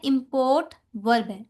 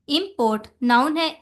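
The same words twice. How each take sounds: First: import stressed on the second syllable PORT, slower; import said as imPORT, weight on port; verb stress. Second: import stressed on the first syllable IM; import with a strong first syllable, IMport; noun stress. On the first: Teacher showing the verb import, last syllable stressed. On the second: Teacher showing the noun import, first syllable stressed. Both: Shown as a demonstration. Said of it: "सिर्फ stress को change किया".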